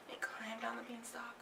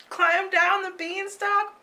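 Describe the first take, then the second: First: Hushed whispered narration. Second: High, loud, urgent narration; frantic. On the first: Narrator tells of Jack sneaking down, whispering. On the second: Narrator tells of Jack fleeing the giant, high and urgent. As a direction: rush the words like a chase. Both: A narrator's reading.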